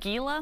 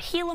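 First: The word begins with a hard G sound. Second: The word begins with an H sound. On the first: The speaker calls it wrong. "a lot of people pronounce it Gila monster" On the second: The speaker calls it right. "if you want to sound like a professional, use an H"

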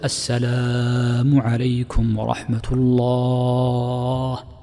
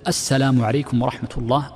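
First: The vowels are drawn out and lengthened. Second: The vowels are kept short, not lengthened.

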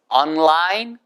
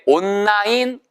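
First: There is a slight break after 'on'. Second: The word runs together smoothly with no break. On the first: The speaker calls it right. "그래서 on 끊고 line이에요" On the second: The speaker calls it wrong. "절대 온라인, 온라인 다 틀려요"

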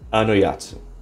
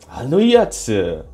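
First: It is said in the speaker's normal voice. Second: It is said in an exaggerated anime-style voice.

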